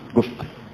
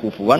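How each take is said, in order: First: The middle of the word has a glottal stop. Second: The middle of the word has a w sound. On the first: "ada yang baca apa?" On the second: "Kalau dibaca wawu"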